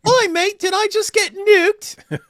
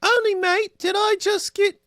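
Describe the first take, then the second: First: High, loud mock British accent, slow "nuked"; British girl accent. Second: High mock British girl accent, "mate" chirped. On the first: Mock British girl asking if she got nuked, high accent. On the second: Reading a chat name, high British girl accent. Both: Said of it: "British girl".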